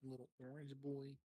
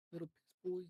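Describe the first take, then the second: First: Teasing high-pitched mimic; squeaky mocking repeat. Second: Much higher, louder taunting squeak; shrill mocking squeal. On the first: Teasing repeat of friend's words. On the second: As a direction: screech it like a teasing kid. Escalated teasing, louder.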